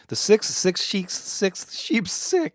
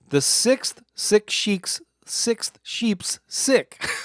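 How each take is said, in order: First: It is said a little faster. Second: It is said at a normal speed.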